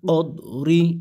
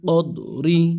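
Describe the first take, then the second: No difference in how they are said.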